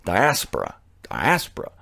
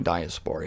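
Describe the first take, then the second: First: Diaspora as die-ASS-per-uh, stress on ASS; accent on second syllable. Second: The wrong diaspora, die-uh-SPORE-uh; mispronounced. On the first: Host correcting his own mistake, diaspora stressed as die-ASS-per-uh. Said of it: "You put the accent on the second syllable". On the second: Host warning listeners off the error, diaspora wrongly said die-uh-SPORE-uh. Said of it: "Don't be caught dead saying". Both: Shown as a demonstration.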